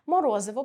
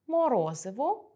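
First: Морозиво called out loud with a quick rise; teacher calling out морозиво to mark the suffix; loud stressed example. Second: Морозиво drawn out slowly with a rising end; teacher stretching морозиво for the class; slow stressed example. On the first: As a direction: punch морозиво loudly to point at the suffix. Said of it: "мають суфікс ив". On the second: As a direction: say морозиво slowly, lifting the last syllable. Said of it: "три слова". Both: Shown as a demonstration.

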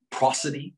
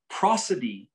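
First: PROSODY with a rising, questioning end; questioning term. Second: Prosody with a falling, settled end; stated term. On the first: Teacher checking the class recalls prosody, questioning rise. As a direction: lift the end of prosody as a prompt. Presents a big word as question. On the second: Teacher confirming the word prosody, falling statement. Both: Shown as a demonstration.

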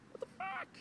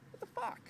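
First: Very high incredulous squeak; squeaky disbelief. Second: Pitched way up in disbelief; disbelieving what the fuck, pitched high; rising disbelief. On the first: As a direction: top the last one, pitch cracking up high. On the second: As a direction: climb higher on the repeat, stunned. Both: Real, not acted. Repeated disbelief building.

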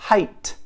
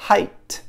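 First: "Height" said without h, ajt; "Height" with a bare I diphthong; English height. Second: "Height" with a breathy h onset, hajt; "Height" with h and the I glide; English height with h. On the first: Teacher repeating the word for learners, plain model. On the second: Teacher repeating the word for learners, second model. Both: Shown as a demonstration. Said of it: "Mesmo som".

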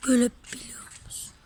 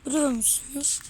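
First: Hushed whisper, words breathed out. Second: Said in the usual way. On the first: Real, not acted. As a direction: whisper it like sharing a secret. Kids exploring dark old factory.

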